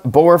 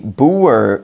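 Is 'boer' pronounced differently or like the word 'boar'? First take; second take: like boar; differently. First: The word sounds like 'boar', the pig. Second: The word does not sound like 'boar'. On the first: The speaker calls it wrong. "it's not boer farmers, like a little piggy" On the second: The speaker calls it right. "It is a boer farmer"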